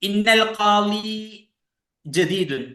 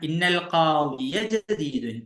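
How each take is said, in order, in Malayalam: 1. 'qadi' എന്ന വാക്ക് അവസാന സ്വരമില്ലാതെയാണ് അവസാനിക്കുന്നത്. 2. 'qadi' എന്ന വാക്ക് വ്യക്തമായ 'ya' ശബ്ദത്തോടെയാണ് അവസാനിക്കുന്നത്. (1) "തെറ്റാണ്" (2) "നസ്ബ് ഫത്ഹ് വ്യക്തമായിട്ടുണ്ട്"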